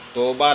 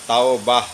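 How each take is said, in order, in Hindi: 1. पहला स्वर सादा 'o' जैसा लगता है। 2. पहला स्वर संयुक्त स्वर 'au' जैसा लगता है। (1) "तो नहीं है" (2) "तौ है लफ्ज"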